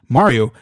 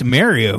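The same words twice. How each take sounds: First: It is said with an Italian-style accent. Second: It is said with a Northeastern US accent. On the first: The speaker calls it right. "it's a me, Mario" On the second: The speaker calls it wrong. "not Mario. What are you doing up there, Northeastern?"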